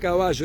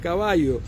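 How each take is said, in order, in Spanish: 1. Se dice con acento porteño argentino. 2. Se dice con acento no argentino. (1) "no decía caballo" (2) "hacía otro acento, ... decía caballo"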